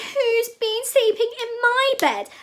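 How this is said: It is said in a tiny, teeny voice. "cried Teeny Weeny Baby Bear in his teeny weeny voice"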